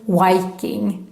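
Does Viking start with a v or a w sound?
w. Viking starts with a Swedish w sound.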